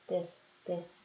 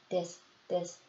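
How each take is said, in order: No difference in how they are said.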